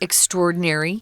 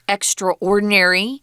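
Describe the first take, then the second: First: It is said blended together as one word. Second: It is said as two separate parts. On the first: "We say those two words together" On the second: "I sometimes hear people pronounce it extraordinary"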